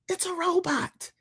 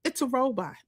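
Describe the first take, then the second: First: "It's a robot." pitched much higher, hitting "It's" hard; emphatic repeat. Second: Said in the usual way. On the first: Shown as a demonstration. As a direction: lift "It's a robot." up high to drive it home. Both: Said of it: "It's a robot, child".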